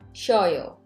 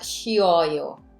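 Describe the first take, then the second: First: The first two syllables blend into one. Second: Each of the three syllables is said separately. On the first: "it sounds like a two syllable" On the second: "I don't pronounce it like"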